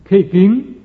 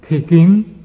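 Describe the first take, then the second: The two takes are said the same way.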